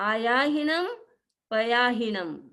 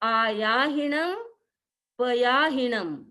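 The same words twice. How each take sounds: No difference in how they are said.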